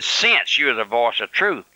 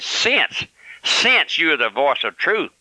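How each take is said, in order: First: Said in the usual way. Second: Mock sarcasm. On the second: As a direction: mimic a smug letter writer's sarcastic jab. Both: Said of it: "the message reeking with sarcasm".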